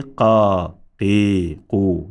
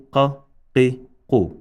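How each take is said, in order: First: "qa, qi, qu" with each vowel held long; wrongly extended vowels. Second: "qa, qi, qu" as brief separate syllables; no lengthening at all on "qa, qi, qu"; short, unextended vowels. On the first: Teacher showing what not to say, "qa, qi, qu" elongated. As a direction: stretch "qa, qi, qu" one drawn-out syllable at a time. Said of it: "There is no extension here". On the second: Teacher showing what not to say, "qa, qi, qu" said short. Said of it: "because there are extensions here". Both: Shown as a demonstration.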